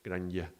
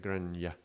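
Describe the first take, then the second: First: The word ends with a y glide sound. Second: The same.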